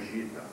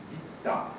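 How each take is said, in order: First: The first consonant is a soft zh-like sound. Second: The first consonant is a hard guttural g. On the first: The speaker calls it wrong. "Não é gita, pelo amor de Deus" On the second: The speaker calls it right. "vai ter o mesmo som gutural"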